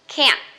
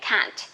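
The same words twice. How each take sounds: First: It is said in an American accent. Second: It is said in a British accent. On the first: "this one for American English, people usually say can't. You raise your voice a little bit" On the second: "For British English, people say can't"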